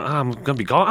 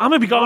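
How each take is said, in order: First: Said in the usual way. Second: High, loud whiny sing-song; mock lament. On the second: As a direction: wail it like a mock goodbye.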